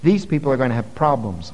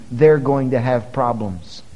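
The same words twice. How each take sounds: First: Said in the usual way. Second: They're leaned on, slower pace, falling end; slow down and hit they're; emphatic repeat of they're going to have problems; slower repeat with stress on they're. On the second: Shown as a demonstration. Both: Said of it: "Let me tell you".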